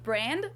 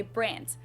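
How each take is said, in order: First: Said in the usual way. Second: "brand" ending in a hard T, like "brant"; German final T. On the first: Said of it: "So instead of brand". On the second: Shown as a demonstration. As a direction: devoice the D at the end of "brand" into T. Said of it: "pronounce a D at the end of a word as a T".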